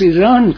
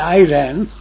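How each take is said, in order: First: The word is said closer to the native way. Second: The word is said in an anglicized English way. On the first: The speaker calls it right. "they pronounce Iran correctly" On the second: The speaker calls it wrong. "They don't say Iran"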